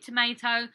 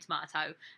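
First: It is said with an American-style middle vowel. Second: It is said with a British-style middle vowel. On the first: This is how the local people say it. "they say, you mean tomato?" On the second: This is the speaker's own usual pronunciation. "No, I don't. I mean tomato"

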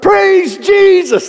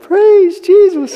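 First: It is said loudly, with full energy. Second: It is said weakly, without much energy.

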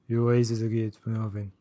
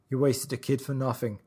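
First: The words are slurred in a mumbling put-on voice. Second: The words are spoken clearly and distinctly. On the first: "I was going to do it like it really is" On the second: "I could actually understand you"

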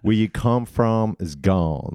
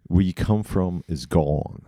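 First: It is said in a put-on Tennessee accent. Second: It is said in the speaker's ordinary accent.

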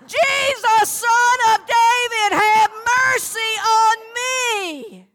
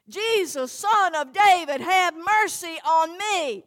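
First: It is said at the loudest volume. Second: It is said at the softest volume.

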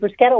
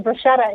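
First: The middle consonant is a hard k sound. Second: The middle consonant is a soft sh sound. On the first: The speaker calls it right. "that H is what's making it a hard sound" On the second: The speaker calls it wrong. "if I hear people say bruschetta"

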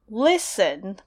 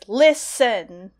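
First: Only the first syllable is stressed. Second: Both syllables are stressed equally. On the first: "Usually, I think listen would be listen" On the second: "but here it comes out as listen"

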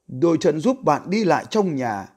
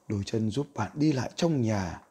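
First: It is read louder than normal. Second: It is read softer than normal.

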